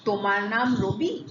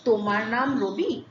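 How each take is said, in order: First: The voice rises at the end. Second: The voice rises at the end.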